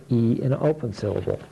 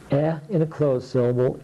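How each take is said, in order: First: "E" said like the letter's name; long E. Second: "E" said as the vowel in bed; short E. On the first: Teacher models the open syllable sound, long "E". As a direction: say "E" long, as in feed. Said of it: "the sound O in an open syllable". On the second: Teacher models the closed syllable sound, short "E". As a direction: say "E" short, as in eddy. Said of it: "put the short vowels in here". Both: Shown as a demonstration.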